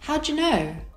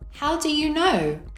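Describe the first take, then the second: First: The words are linked and reduced together. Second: Each word is said separately and fully. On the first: "with connected speech" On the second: "without connected speech"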